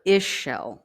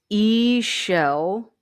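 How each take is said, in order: First: Ishel said as ISH-el, short i, slow; second pronunciation. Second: Ishel said as EE-shel, long ee then shel, slow; first pronunciation. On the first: Tarot reader offering the alternate name, ISH-el slowly. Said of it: "That's how you pronounce that". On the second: Tarot reader teaching viewers the name, EE-shel slowly. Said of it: "here it gives you a pronunciation". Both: Shown as a demonstration.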